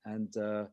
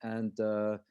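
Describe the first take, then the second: No difference in how they are said.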